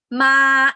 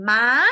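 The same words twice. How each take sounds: First: "ma" held long on a level pitch; steady, sustained "ma"; flat tone. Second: "ma" lifting upward at the end; rising high-tone "ma". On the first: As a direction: stretch "ma" evenly, no rise. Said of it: "This one is flat". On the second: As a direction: say "ma" with a climbing pitch. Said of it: "And this one is high". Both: Shown as a demonstration.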